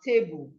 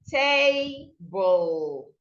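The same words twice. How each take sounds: First: The stress is on the second syllable. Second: The stress is on the first syllable. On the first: The speaker calls it wrong. "not table" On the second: The speaker calls it right. "So the first syllable is tay. This is where you stress"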